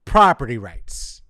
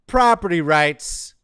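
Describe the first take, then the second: First: Loud, falling at the end; loud verdict with a falling tune; final emphatic repeat. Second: Loud, slow, high proclamation; emphatic announcing. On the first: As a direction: drop it heavily as the last word. Last repeat, falling, after long pause. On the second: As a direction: boom it out slowly to hammer it home. Hammering a point in a list. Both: Real, not acted.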